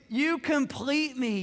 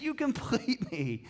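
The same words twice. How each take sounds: First: Slow, lifted, swooning quote; movie line. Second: Repeated movie line. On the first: Pastor quoting Jerry Maguire to laughing congregation, slow swoon. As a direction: sigh it out like the film romance. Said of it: "second most famous line out of the movie". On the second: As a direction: savour it once more, gently. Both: Retold or imitated.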